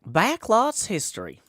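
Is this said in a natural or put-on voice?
natural. It is said in an ordinary, natural voice. "That wasn't Chef Nutmeg"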